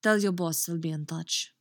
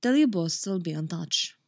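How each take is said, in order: First: Put-on overshot Russian-sounding accent; heavy-handed Russian-tinged accent; too-Russian accent. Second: Put-on accented line, easing off the Russian; less Russian accent. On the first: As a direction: let the accent slip too far into Russian. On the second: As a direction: retake with the Russian accent toned down. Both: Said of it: "that's too fucking Russian again".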